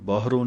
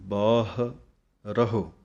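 First: It is run together as baahron, nasal ending. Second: It is said as two parts, baah raho. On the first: The speaker calls it wrong. "ਇਹਨੂੰ ਬਾਹਰੋਂ ਨਹੀਂ ਕਹਿਣਾ" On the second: The speaker calls it right. "ਇਸ ਤਰ੍ਹਾਂ ਬੋਲਾਂਗੇ ਸ਼ੁੱਧ ਉਚਾਰਨ ਹੈ"

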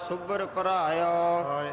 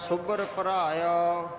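Both takes have the same delivery.

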